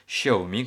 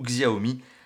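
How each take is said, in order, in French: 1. Le nom commence par un son 'sh' doux. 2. Le nom commence par un son 'ks' dur. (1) "quand on prononce correctement" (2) "quand on prononce pas vraiment correctement, puisque c'est un X"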